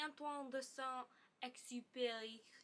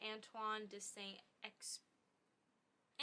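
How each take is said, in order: First: The name is said with a French accent. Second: The name is said with an English accent.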